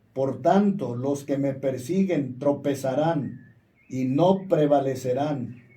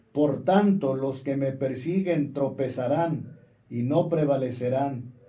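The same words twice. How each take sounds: No difference in how they are said.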